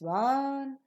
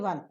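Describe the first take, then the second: First: The voice rises on the word. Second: The voice falls on the word. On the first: The speaker calls it right. "All the other enumerated things, counted things will receive the rising tone" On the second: The speaker calls it wrong. "So you will not say one, two, three. You will not fall down"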